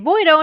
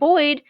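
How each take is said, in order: First: It is said with a Japanese-style pronunciation. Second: It is said with a plain English pronunciation.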